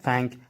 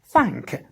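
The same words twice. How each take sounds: First: The A vowel is plain, not exaggerated. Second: The A vowel is drawn out and exaggerated. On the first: The speaker calls it wrong. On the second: The speaker calls it right. "it must be a little bit, a bit exaggerated, like this"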